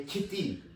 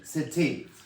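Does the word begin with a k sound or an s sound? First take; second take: k sound; s sound. First: The word begins with a hard k sound. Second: The word begins with a soft s sound. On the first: The speaker calls it wrong. "We don't say kitty" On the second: The speaker calls it right. "the sound changed to from ka to sa"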